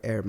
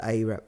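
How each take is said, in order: First: Said in the usual way. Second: "Arab" said AY-rab; mimicked mispronunciation. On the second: Retelling the co-worker's words, "Arab" mispronounced AY-rab. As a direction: say "Arab" as AY-rab, long first vowel.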